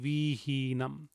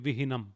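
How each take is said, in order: First: Both i vowels are said long. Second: Both i vowels are said short. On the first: "If both the I's had a bar, it would be vihinam" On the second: "If none of the I's had a bar, it would be vihinam"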